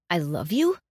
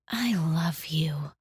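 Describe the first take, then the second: First: Said in the usual way. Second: Soft, slow whispered I love you; tender I love you. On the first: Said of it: "Or we can say". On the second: Shown as a demonstration. To a loved one, whispered tenderly. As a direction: breathe it gently, like a secret. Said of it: "interpreted by the tone of our voice".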